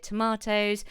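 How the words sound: The word is said with a British accent. "I'm from England, so I say tomatoes"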